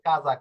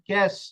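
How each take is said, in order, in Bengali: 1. শব্দটি সঘোষ 'za' ধ্বনি দিয়ে শেষ হয়। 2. শব্দটি 'sh' ধ্বনি দিয়ে শেষ হয়। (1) "যেরকম একটা শব্দ রয়েছে যে কাজা" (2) "কাজার জায়গায় যদি আপনি পড়েন ক্যাশ"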